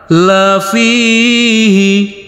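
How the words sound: The pitch stays level throughout.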